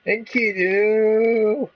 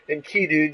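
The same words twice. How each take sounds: First: Much higher, very slow, drawn-out yell; long calling cry. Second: Said in the usual way. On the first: Acted. Gilgamesh crying out for Enkidu, drawn-out yell. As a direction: hurl the name across the sky.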